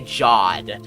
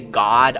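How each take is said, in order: First: The word begins with a soft J sound. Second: The word begins with a hard G sound. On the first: This is the speaker's own joking version. "I say Jod" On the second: This is how most people say it. "you know how people say God?"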